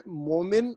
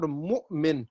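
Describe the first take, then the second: First: مومن with a long smooth o, no glottal catch; converted hamza. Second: مؤمن with a glottal catch after the first syllable; hamza kept. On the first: Teacher showing students both readings, smooth vowel in place of hamza. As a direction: glide through مومن without stopping at the hamza. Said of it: "convert کر دیا واو سے". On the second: Teacher contrasting two readings, hamza clearly caught. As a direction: stop briefly at the hamza in مؤمن, then finish. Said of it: "تو اب آپ دیکھیں". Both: Shown as a demonstration.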